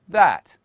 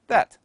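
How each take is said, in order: First: The word is said with a full vowel. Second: The word is said with a reduced vowel. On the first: "As a strong form" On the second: "but in a weak form"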